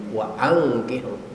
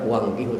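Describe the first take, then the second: First: A glottal stop separates the two words. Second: The two words run together without a glottal stop. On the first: The speaker calls it right. "tapi wa angkihu" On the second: The speaker calls it wrong. "jangan baca wangkihu"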